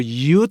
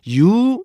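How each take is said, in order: First: "you" cut off on an unreleased t; stopped ending. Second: "you" as an open, drawn "yoo"; no stop. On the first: Teacher showing the preparation before "know", stopped. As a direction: clip "you" into "yut". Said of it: "이거를 you 이렇게 안 해주고요". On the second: Teacher showing the wrong way, left open. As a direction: let "you" run on without closing the tongue. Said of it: "you 이렇게 하자면". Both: Shown as a demonstration.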